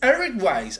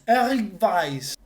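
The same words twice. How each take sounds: First: The name is pronounced the English way. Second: The name is pronounced the German way. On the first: "En inglés" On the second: "Primero en alemán"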